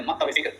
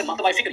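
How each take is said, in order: First: मकतबा फ़िक्र said as "maktab-e fikr"; correct form. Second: मकतबा फ़िक्र with "-ba-i" joining the words; incorrect form. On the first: Teacher giving students the real word, correct pronunciation. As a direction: link मकतबा फ़िक्र with a short "e", no "ba-i". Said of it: "जो असल लफ्ज़ होता है". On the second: Teacher showing students the mistaken form, incorrect pronunciation. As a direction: say मकतबा फ़िक्र with an extra "a" after maktab. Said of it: "ये गलत है". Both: Shown as a demonstration.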